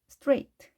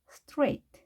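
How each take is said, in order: The two takes are said the same way.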